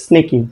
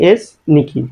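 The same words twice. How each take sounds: First: "স্নেকি" blended into one quick word; said quickly together. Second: "এস", a break, then "নিকি"; said separately. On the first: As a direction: run the s straight into the rest of "স্নেকি". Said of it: "একসাথে দ্রুত উচ্চারণ করি". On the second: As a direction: pronounce "এস" and "নিকি" as two separate pieces. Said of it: "আলাদা আলাদা উচ্চারণ করি". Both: Shown as a demonstration.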